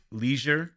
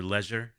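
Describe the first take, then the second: First: "leisure" said LEE-zhur; long-E pronunciation. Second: "leisure" said LEZH-ur; short-E pronunciation. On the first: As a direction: say "leisure" with a long ee in the first syllable. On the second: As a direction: say "leisure" with a short e, rhyming with "measure". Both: Shown as a demonstration. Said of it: "depends on how you pronounce it".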